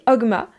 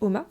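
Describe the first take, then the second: First: The g sound is pronounced in the middle. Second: The g sound is left out entirely. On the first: It matches how the name is written. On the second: It matches how the name is actually pronounced.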